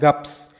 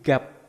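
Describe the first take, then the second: First: The word ends with two consonants, p and s. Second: The word ends with a single consonant, p. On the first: The speaker calls it wrong. "jadi bukan gaps" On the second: The speaker calls it right. "tapi gap"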